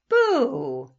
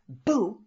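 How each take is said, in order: First: The word is drawn out slowly and playfully. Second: The word is said quickly and sharply. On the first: It is silly and takes the fear out. "like in slow motion" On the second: It is meant to scare someone. "instead of saying, boo, and scaring her"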